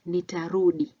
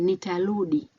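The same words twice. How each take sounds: First: The middle consonant sounds like an R. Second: The middle consonant sounds like an L. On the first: The speaker calls it right. "instead of saying nitarudi, meaning I'll come back" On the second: The speaker calls it wrong. "some people may say"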